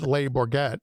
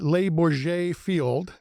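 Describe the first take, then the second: First: The name is said in the local hometown form. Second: The name is said in its carefully checked form. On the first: This is how people back home say it. "I'm from Sandwich and we call it" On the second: This is the form the speaker checked before saying it. "I had to uh, ask Norb uh, how to pronounce that"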